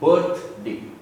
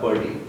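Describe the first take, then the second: First: The word has a clear th sound. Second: The word sounds like bird plus day. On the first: The speaker calls it right. "the correct pronunciation would be birthday" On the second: The speaker calls it wrong. "It's not a bird having a day"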